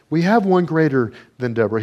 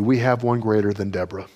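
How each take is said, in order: First: "have" lifted and pushed harder; insistent preacher repeat, "have" leaned on; repeated for emphasis. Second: Said in the usual way. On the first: Shown as a demonstration.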